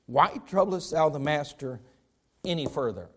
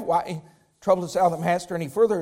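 First: Cold. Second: Said in the usual way. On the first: Retold or imitated. Messenger telling Jairus to give up, cold and low. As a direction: say it like a messenger who has stopped caring. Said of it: "Can you be any more cold than that?". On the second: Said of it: "Now look what it says".

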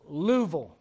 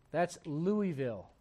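First: Tennessee "Louisville" squeezed to two syllables, Luh-vul; Tennessee accent. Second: Said in the usual way. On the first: Shown as a demonstration. Pastor showing the local Tennessee way to say Louisville. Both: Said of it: "people talk a little bit different there".

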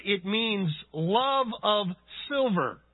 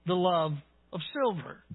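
First: "love of silver" slow, leaning on "love"; stressed definition. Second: Said in the usual way. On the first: Shown as a demonstration. Preacher explaining the Greek word to the congregation, slow stress on "love". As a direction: slowly set out "love of silver" as the word's meaning. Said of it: "So added to the root". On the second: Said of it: "and then you add the prefix".

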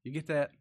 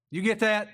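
First: Said in the usual way. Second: Louder, higher, pressing question; insistent check. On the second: Real, not acted. Preacher checking the congregation follows, insistent. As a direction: push the question out at the listeners.

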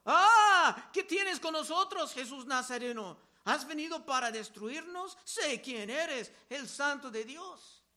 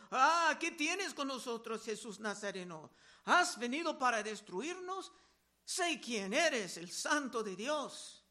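First: A possessed man shrieking at Jesus; demon crying out. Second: A restrained reread of the demon's cry; milder demon outcry. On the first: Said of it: "un hombre con espíritu inmundo que dio voces diciendo". (grito de endemoniado, mucho más alto y fuerte al inicio) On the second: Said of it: "que dio voces diciendo". (grito de demonio más contenido, final lento) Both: Acted.

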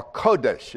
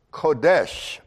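First: Kodesh with the first syllable stressed, KO-desh. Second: Kodesh with the final syllable stressed, ko-DESH; stress on second syllable. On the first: Teacher offering the other pronunciation, Kodesh stressed on KO. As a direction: say Kodesh as KO-desh, leaning on the start. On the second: Teacher offering one pronunciation of the Hebrew word, Kodesh stressed on DESH. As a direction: say Kodesh as ko-DESH, leaning on the end. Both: Shown as a demonstration. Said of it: "I think the emphasis is on the first syllable".

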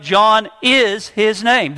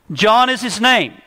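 First: "is" leaned on hard, slow and firm; "John is his name" with "is" pressed down, slow; emphatic stress on is. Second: Said in the usual way. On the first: Shown as a demonstration. Preacher showing Zacharias's firm reply, slow stress on "is". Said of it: "he's very emphatic". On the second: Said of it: "the first word that he wrote on the tablet was John".

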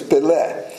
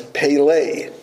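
First: Pelé with Portuguese vowels, open first e; Pelé said the Brazilian way. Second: Pelé said the English way, stress on the last syllable; anglicized Pelé, peh-LAY; Americanized Pelé. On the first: Preacher corrects the name to its Portuguese sound. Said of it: "is really pronounced Pelé". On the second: Preacher gives the common American way of saying the name. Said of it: "but it's Pelé". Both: Shown as a demonstration.

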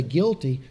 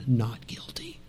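First: Said in the usual way. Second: Breathy whispered Not guilty, very soft and hushed; whispered verdict. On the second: Acted. Jesus answering the accusers, whispered.

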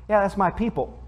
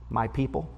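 First: Put-on Southern accent. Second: Said in the usual way. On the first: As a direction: lightly imitate a Southern relative saying "my people". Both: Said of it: "that's how they say that".

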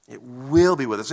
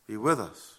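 First: "will" stressed as a sure promise. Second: Said in the usual way. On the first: Real, not acted. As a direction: lean firmly on "will", drawing it out. Restates verse stressing its certainty.

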